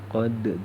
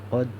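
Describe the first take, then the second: First: The final d has an echoing bounce. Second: The final d is held without a bounce. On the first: This is how it is written. "Ini tulisannya qad" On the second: This is how it is read. "dibaca qad"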